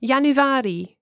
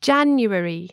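First: "Januari" stressed on the second-to-last syllable, "a"; Dutch penultimate stress. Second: "January" with the stress on its first syllable; English first-syllable stress. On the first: Teacher showing Dutch month stress, "Januari" stressed on the penultimate syllable. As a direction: Dutch "Januari", leaning on the long "a" before "ri". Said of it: "second to last or penultimate".

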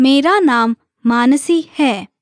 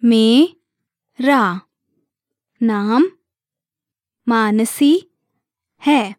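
First: Said in the usual way. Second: Broken down by syllable. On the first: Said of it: "hear it one more time". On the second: Shown as a demonstration. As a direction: say it piece by piece, leaving a gap after each. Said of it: "Let's break it down by syllable".

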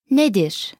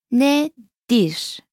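First: Said in the usual way. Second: Nedir split slowly into ne, dir; syllable-by-syllable model. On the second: Shown as a demonstration. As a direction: say Nedir with a pause between its two syllables. Teacher splits syllables, then says normally.

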